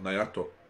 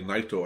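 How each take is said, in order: First: The name is said with three syllables. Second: The name is said with two syllables. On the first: The speaker calls it wrong. "and not Nayato" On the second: The speaker calls it right. "say Naito and not Nayato"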